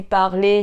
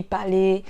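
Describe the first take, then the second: First: "parler" with the R sounded; R pronounced. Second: "parler" with no R, like "palé"; "parler" said Ivorian-style, R left out; dropped R. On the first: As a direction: say "parler" with its R clearly articulated. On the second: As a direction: swallow the R in "parler". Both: Shown as a demonstration. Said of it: "c'est le R en fait".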